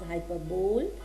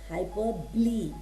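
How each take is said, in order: First: It ends in a 'bowl' sound, three syllables. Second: It ends in 'bolee', four syllables. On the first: The speaker calls it wrong. "It's not pronounced as hyperbole" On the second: The speaker calls it right. "it is hyperbole"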